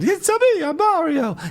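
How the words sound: The voice is pitched very high.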